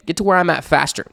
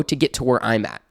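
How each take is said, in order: First: "where" pushed up high, whole line lifted; stressed restatement. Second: Said in the usual way. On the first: Real, not acted. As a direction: lift "Get to where I'm at faster" high for emphasis.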